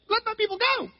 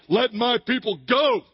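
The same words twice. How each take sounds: First: It is said in a weak, timid voice. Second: It is said in a booming, commanding voice.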